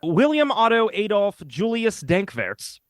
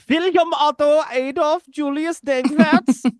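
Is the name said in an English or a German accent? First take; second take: English; German. First: The name is said in a plain English accent. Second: The name is said in a German accent.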